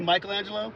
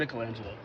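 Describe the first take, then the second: First: The first part sounds like 'Michael'. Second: The first part sounds like 'Mickle'. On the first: The speaker calls it wrong. "Some people say Michelangelo ... pronounced the same way as Michael" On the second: The speaker calls it right. "I call him Michelangelo. ... I think it's Mickle"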